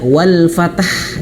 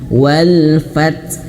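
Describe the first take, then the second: First: The last word has an added vowel before h. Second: The last word ends on a bare consonant. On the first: The speaker calls it wrong. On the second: The speaker calls it right.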